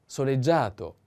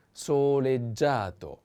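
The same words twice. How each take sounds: First: Said in the usual way. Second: "soleggiato" drawn out syllable by syllable; slow model pronunciation. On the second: Shown as a demonstration. Teacher models one more adjective, slow "soleggiato". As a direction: stretch each syllable of "soleggiato" slowly.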